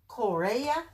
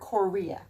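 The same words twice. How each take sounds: First: It is pronounced the Hebrew way. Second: It is pronounced the English way.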